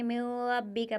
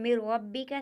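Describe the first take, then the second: First: The n is nasalized with a held hum. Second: The n merges into r without nasal hum. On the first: The speaker calls it wrong. "इसको हम इस तरह नहीं पढ़ेंगे" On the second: The speaker calls it right. "गुन्ने के साथ अदा नहीं करेंगे"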